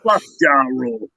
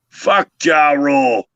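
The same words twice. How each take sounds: First: It is said at normal pace and volume. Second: It is said slower and louder.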